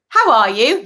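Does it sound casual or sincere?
casual. It sounds quick, routine and casual.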